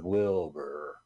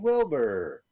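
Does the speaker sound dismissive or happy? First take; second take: dismissive; happy. First: The name is said in a dismissive tone. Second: The name is said in a happy tone. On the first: "When he's dismissive" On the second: "When he's happy"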